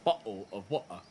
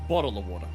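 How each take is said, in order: First: An English accent, with the t sounds dropped entirely. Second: An Australian accent, with the t sounds voiced like d. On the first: "the English accent cuts out the letters entirely" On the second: "The Australian accent turns T's into D's"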